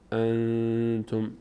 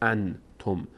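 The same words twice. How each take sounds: First: The n is hidden, sounding through the nose. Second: The n is pronounced fully with the tongue. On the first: The speaker calls it right. "میگیم ان انتم انتم، صدا از بینی خارج میشه" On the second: The speaker calls it wrong. "نباید بگیم انتم"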